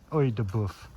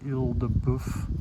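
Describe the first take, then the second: First: The first word sounds like 'oy'. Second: The first word sounds like 'eel'. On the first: The speaker calls it right. "So I guess you gotta say it like an Irishman" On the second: The speaker calls it wrong. "I'm saying that wrong"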